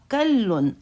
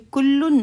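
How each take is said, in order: First: The first vowel is an 'a' sound. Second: The first vowel is a 'u' sound. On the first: The speaker calls it right. "हकीकत में यह वहुवा कल्लुन अला मौलाहु।" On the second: The speaker calls it wrong. "ये कुल्लुन नहीं है।"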